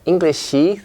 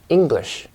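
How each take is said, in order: First: An extra vowel is added after the final sh. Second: The word ends cleanly on the sh sound. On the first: The speaker calls it wrong. "not Englishy" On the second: The speaker calls it right. "We say English"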